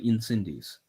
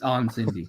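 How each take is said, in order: First: It is said English-style with a final S sound. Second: It is said French-style with no final S sound. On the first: The speaker calls it wrong. "You look at it in English, you want to say" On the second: The speaker calls it right. "you don't say the S"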